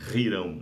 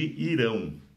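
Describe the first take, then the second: First: The name starts with a throaty consonant. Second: The name starts directly with a vowel. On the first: "Ou Rirão" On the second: "com H"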